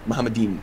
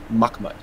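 First: The word has three syllables ending in -im. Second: The word has two syllables ending in -mud. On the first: This is how another person pronounced it. The speaker calls it wrong. "The way that he pronounced it is Muhammadim" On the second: This is how the word is actually pronounced. The speaker calls it right. "is actually pronounced Mahmud"

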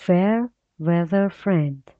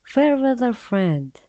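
First: It is said at a slower pace. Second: It is said at a faster pace.

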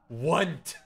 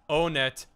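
First: One syllable, starting with a 'w' sound. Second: Two syllables, starting with a long 'oh' sound. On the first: "Want is the Omega Galaxy brain" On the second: "I always pronounced it own it"

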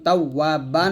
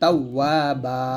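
First: The word ends with an -an ending. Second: The word ends with a long a vowel. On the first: The reading continues past this word. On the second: The reading stops on this word.

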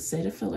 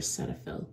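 First: The first syllable sounds like 'say'. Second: The first syllable sounds like 'set'.

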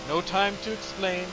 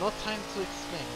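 First: It is said in the speaker's plain accent. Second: It is said in a put-on German accent.

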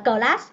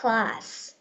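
First: An extra vowel follows the first consonant. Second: No extra vowel follows the first consonant. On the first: The speaker calls it wrong. "mình không đọc là class" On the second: The speaker calls it right. "mình đọc là class"

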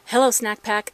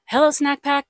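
First: The voice has light background noise reduction. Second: The voice has strong background noise reduction. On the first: "This is level one noise cancellation" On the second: "This is level three noise cancellation"

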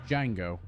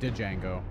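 First: The initial D sound is silent. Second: The initial D sound is pronounced. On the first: The speaker calls it right. "But it's Django" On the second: The speaker calls it wrong. "I would keep saying Django"

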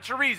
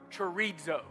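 First: The word is pronounced like the sausage name. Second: The word has the Greek pronunciation. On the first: It names a food. The speaker calls it wrong. "not chorizo" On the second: It means to separate. The speaker calls it right. "the Greek word chorizo"

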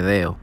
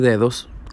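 First: The middle d and final s are dropped. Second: The middle d and final s are pronounced. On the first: The speaker is excited and talks in Dominican style. "cuando un dominicano se emociona, ... dice deo" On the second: This is the standard form of the word. "en vez de decir dedos"

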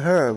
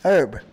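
First: The word starts with a clear h sound. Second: The word starts with a vowel, no h sound.

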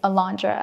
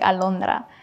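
First: The name is said with an English accent. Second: The name is said with a Spanish accent. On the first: It is adapted for listeners who struggle with the name. The speaker calls it wrong. "I would just say it's Alondra" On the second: It is the name's own pronunciation. The speaker calls it right. "I wouldn't pronounce it like Alondra"

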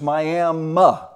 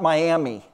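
First: The word ends with an 'uh' sound. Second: The word ends with an 'ee' sound. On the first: The speaker calls it right. "It is Miami" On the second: The speaker calls it wrong. "it's not Miami"

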